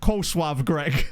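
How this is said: It is pronounced in a Polish style.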